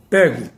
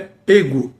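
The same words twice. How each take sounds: First: The stressed vowel is an open e. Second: The stressed vowel is a closed e. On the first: This is a colloquial, informal pronunciation. The speaker calls it wrong. "e não pego" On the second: This is the formal, standard pronunciation. The speaker calls it right. "a forma correta é pego"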